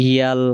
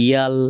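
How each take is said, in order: No difference in how they are said.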